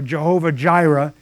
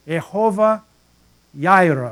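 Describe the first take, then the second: First: The second word starts with a J sound. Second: The second word starts with a Y sound. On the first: The speaker calls it wrong. "some pronunciations are Jehovah Jireh" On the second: The speaker calls it right. "It's actually Jehovah Yireh, you don't pronounce J"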